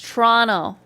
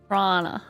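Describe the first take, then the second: First: The word is reduced, without the middle T. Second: The word is squeezed down even further. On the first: "you're doing it wrong. It's it's Toronto" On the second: "Or if you're super advanced, like that"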